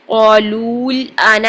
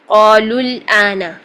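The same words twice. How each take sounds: First: The vowel before the L is drawn out long. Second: The vowel before the L is cut short. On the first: The speaker calls it wrong. "हम पहले हरफ मद्दा को भी पूरा करें और फिर लाम साकिन पढ़ें ... ऐसा नहीं करेंगे" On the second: The speaker calls it right. "लाम की दोमा को सीधा डायरेक्ट लाम साकिन के साथ जोड़ देंगे"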